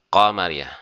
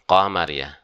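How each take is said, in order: No difference in how they are said.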